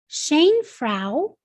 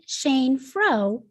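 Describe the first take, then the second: First: The last vowel sounds like 'ow' in cow. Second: The last vowel sounds like 'oh' in snow. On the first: "as we know O W can make the ow or o sound" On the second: "or we could pronounce it"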